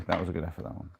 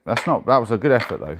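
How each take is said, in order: First: Soft, murmured "That was a good effort"; quiet repeat. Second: Loud, emphatic "That's not, that was a good effort"; louder consoling. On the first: Repeating it to himself after the miss, softly. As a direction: let it drop to a quiet aside. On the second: After missing the dice roll, a loud rallying consolation. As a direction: push it out, cheering yourself up. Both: Real, not acted.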